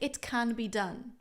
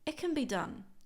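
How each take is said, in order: First: The word can is full and stressed. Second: The word can is weak and reduced. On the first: The speaker calls it wrong. "I don't really emphasize can" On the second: The speaker calls it right. "I reduce it a lot"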